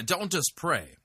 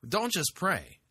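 First: Don't hit high and hard; stress on don't. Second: Don't hit high and hard, then fall; stress on don't. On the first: Host urging listeners, stressing don't. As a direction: punch the word don't. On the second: Host repeating the advice, stressing don't. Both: Real, not acted. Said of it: "Pray in tongues".

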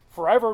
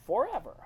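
First: Said in the usual way. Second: "forever" set apart, pitch jumping up then falling; "forever" as the emphatic, final answer. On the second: Shown as a demonstration. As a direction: punch "forever" with a sharp rise and fall. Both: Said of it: "emphasized in a different way".

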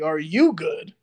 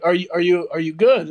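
First: "you" stretched and punched in "Are you good?"; pointed emphasis on "you"; stress on "you". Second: Said in the usual way. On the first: Retold or imitated. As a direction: throw the question back by leaning hard on "you". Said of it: "And I was like". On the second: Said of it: "and she's like".

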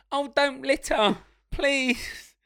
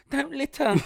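First: Slow, high, prim hero plea; a noble outlaw gently scolding, higher and slower. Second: High prim scold; a noble outlaw's tidy rebuke, pitched high. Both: Retold or imitated.

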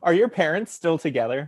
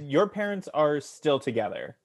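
First: "Are your parents still together?" rising at the end; real question tune; proper question. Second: Said with falling tune like a statement; "Your parents are still together." dropping at the end, no question lift; statement tune by mistake; flat statement. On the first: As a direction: ask it clearly as a question, lift on "together". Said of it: "but it was a question". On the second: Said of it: "I didn't say it like a question". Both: Real, not acted.

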